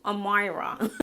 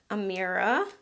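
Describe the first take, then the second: First: The name is said with a put-on accent. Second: The name is said in a plain, ordinary way.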